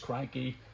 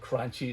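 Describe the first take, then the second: First: The name is said the Italian way. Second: The name is said in an anglicized way. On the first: The speaker calls it right. "it is cranky in Italian" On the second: The speaker calls it wrong. "I call it crunchy"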